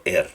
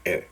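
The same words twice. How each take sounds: First: "R" voiced as a full Spanish-style "er"; wrong R demo. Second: "R" as a short schwa-coloured "er"; reduced R sound. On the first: Teacher showing what to avoid, "R" as a full "er". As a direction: say "R" with a clear E before it. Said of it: "no R". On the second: Teacher correcting students, "R" as a reduced schwa sound. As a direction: say "R" softened into a brief schwa. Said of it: "Se escucha como R". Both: Shown as a demonstration.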